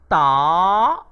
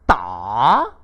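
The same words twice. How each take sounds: First: The pitch rises from middle to high. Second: The pitch dips low and then rises. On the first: It means to arrive. "Bagi nada kedua pula dibunyikan sebagai ta" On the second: It means to hit. "Bagi nada ketiga pula dibunyikan sebagai ta"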